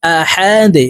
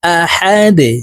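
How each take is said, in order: First: আহাদে with the final দ bounced downward; qalqala on dal. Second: আহাদে ending in a bounced দ with a slight echo; qalqala on dal. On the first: Teacher shows the echoing দ for students. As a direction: push the দ down with a small bounce. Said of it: "নিচের দিকে ধাবিত করে ধাক্কা দিয়ে উচ্চারণ করব". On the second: Teacher repeats the bounced দ for students. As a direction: give the দ a downward push. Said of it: "ধাক্কা দিয়ে উচ্চারণ করব". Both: Shown as a demonstration.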